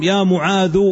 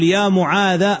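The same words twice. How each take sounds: First: معاذ ending in a short "u"; final damma. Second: معاذ ending in a short "a"; final fatha. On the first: Teacher shows the second permitted case ending, معاذ ending in -u. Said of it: "والثاني الضم". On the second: Teacher shows the first permitted case ending, معاذ ending in -a. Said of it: "الفتح تقول". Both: Shown as a demonstration.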